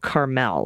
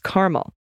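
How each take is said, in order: First: It is pronounced like the California town. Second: It is pronounced like the caramel flavor. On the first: This is how the California town is said. The speaker calls it wrong. "you use the pronunciation Carmel, like in California" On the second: This is how the Indiana town is said. The speaker calls it right. "but it's Carmel, like the flavor"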